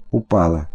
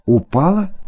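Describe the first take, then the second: First: Упала falling low and flat; упала said as a bitter fact; flat statement. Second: Упала rising as a stunned question; упала asked, not stated; questioning rise. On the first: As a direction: state упала dully, dropping at the end. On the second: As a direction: ask упала in disbelief, voice lifting at the end. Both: A narrator's reading.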